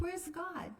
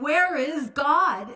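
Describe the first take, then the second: First: It is said quietly and calmly. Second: It is boomed out very loudly.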